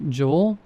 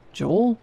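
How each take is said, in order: First: Said in the usual way. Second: Urgent call. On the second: Acted. Calling again, more urgently.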